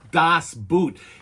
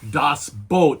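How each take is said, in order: First: The vowel sounds like the one in 'boot'. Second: The vowel sounds like the one in 'boat'. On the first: It would mean footwear. The speaker calls it wrong. "not Das Boot. It is not the story of footwear" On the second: It is the German word for a boat. The speaker calls it right. "The correct name is"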